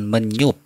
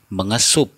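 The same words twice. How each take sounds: First: "menyup" with s melted into ny; "menyup" without any s sound; incorrect form. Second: "mengesup" with menge before sup; "mengesup" with the s intact; correct form. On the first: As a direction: say "menyup" as me-nyup. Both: Shown as a demonstration. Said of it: "bukan menyup".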